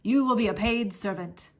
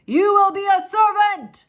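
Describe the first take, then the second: First: Said in the usual way. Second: High, loud shout. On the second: Acted. Soldier shouting to deaf Mig. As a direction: shout each word clearly. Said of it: "shouted the soldier".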